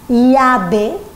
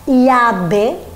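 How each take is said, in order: Both takes have the same delivery.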